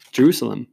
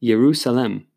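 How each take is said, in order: First: Said in the usual way. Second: Jerusalem said "yeru-salem", opening with a Y sound; two-word Hebrew pronunciation. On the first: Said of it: "Jerusalem even is a Hebrew word". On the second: Shown as a demonstration. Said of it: "it's a compound word".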